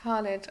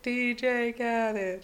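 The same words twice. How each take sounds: First: "Khalid" with a long AH in the first syllable; usual pronunciation. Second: "Khalid" drawn out with a short A, like KAL-id; slow, higher "D J Khalid" with KAL-id; DJ-style pronunciation. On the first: Host answering how they say "Khalid", long AH. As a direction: say "Khalid" as KAH-lid. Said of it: "How do you say it?". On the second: Showing the DJ's name, "[name]" stretched as KAL-id. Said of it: "I say it 'cause it's spelled like D J". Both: Shown as a demonstration.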